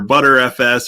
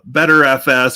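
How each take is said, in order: First: The first part sounds like "butter". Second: The first part sounds like "better". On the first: "however you want to uh, pronounce that" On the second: "however you want to uh, pronounce that"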